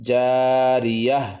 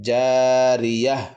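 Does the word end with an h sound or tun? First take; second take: h sound; h sound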